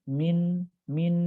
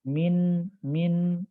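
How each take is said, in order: The two takes are said the same way.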